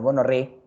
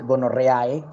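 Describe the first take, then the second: First: The final vowels merge into one e sound. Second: The final vowels are sounded separately. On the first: The speaker calls it right. "todas estas cuatro letras se pronuncian como una sola, como E" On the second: The speaker calls it wrong. "no se dice gonorreae"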